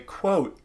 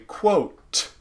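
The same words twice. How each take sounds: First: The final T is stopped without audible release. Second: The final T is released with a puff of air.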